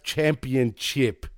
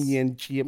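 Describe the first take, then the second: First: "championship" slowly with a clear P, cham-pee-un-ship; correct pronunciation. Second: "championship" mangled as cham-yun-chee-yip; mock mispronunciation. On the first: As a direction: sound out every part of "championship", P included. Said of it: "but it's pronounced championship". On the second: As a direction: swallow the P in "championship" and garble the ending. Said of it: "Not championship". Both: Shown as a demonstration.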